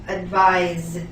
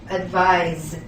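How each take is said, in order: The two takes are said the same way.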